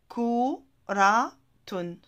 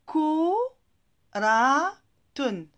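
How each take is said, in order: First: Said in the usual way. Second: "Ko, ra, tun" split into separate beats, first two loud; each beat of "Ko, ra, tun" hit hard, with pauses between; syllable by syllable. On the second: Shown as a demonstration. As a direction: sound out "Ko, ra, tun" one syllable at a time.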